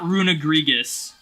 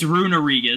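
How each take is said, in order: First: An extra g sound comes before the last part. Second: No g sound comes before the last part. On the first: The speaker calls it wrong. "it's not Runegregus" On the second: The speaker calls it right. "It's Runerigus"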